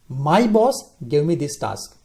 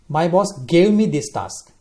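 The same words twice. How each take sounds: First: The stress is on "boss". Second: The stress is on "gave".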